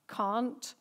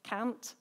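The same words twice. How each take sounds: First: "can't" with a long open "ah"; "can't" rhyming with English "aunt"; English pronunciation. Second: "Can't" with a short front "a"; "Can't" with the vowel of "cat"; local Irish pronunciation. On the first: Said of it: "I had to change the way I said things". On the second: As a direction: say "Can't" as "cant", the Northern Irish way. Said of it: "So I'd say". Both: Shown as a demonstration.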